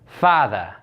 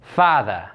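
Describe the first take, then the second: First: It is said in a Brooklyn accent. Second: It is said in a Brooklyn accent.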